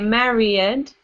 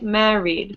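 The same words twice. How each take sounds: First: The word is said with three syllables. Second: The word is said with two syllables. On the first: The speaker calls it wrong. "You don't say" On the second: The speaker calls it right. "you say"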